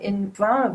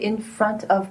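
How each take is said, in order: First: The words front and of are linked together. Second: The words front and of are said separately. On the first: The speaker calls it right. "But you should say like in front of you" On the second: The speaker calls it wrong. "people usually say in front of me, just like I pronounce it"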